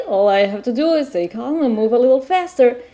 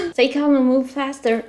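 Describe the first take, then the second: First: Said in the usual way. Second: A laugh breaking into the line. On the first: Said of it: "All right". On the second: Real, not acted. Lost player repeating the game advice, laughing. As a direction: chuckle through it, amused at yourself. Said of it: "yeah, I'm lost".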